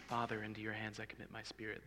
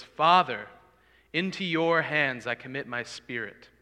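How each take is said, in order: First: Soft, hushed prayer; whispered version. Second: Loud outcry. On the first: Preacher demoing the wrong way, hushed and soft. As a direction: say it under your breath, barely audible. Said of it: "He wasn't whispering this". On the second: Jesus crying out to the Father, loud outcry. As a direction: cry it out to the rafters, slow and strong. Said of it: "It was a great sound, a loud outcry". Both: Shown as a demonstration.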